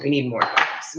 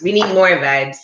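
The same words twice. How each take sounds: First: Said in the usual way. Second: Hyped up. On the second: Shown as a demonstration.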